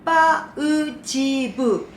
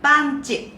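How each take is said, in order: First: The word is said with four syllables. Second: The word is said with two syllables. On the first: The speaker calls it wrong. "네 개의 음절로 말한다면" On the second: The speaker calls it right. "두 개의 음절"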